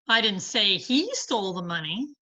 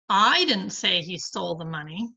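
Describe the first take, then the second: First: The stress falls on the word he. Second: The stress falls on the word I. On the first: Someone else stole it. "but somebody did" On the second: Someone else said it. "but somebody did"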